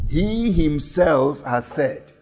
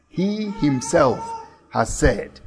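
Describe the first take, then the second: First: "he himself" drawn out slow, "he" leaned on; slow down and weigh "he himself"; stress on he himself. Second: "He himself" slowed, "He" pressed; stress on he himself. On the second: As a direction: linger on "He himself" then drop. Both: Shown as a demonstration. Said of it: "The he himself is emphasized".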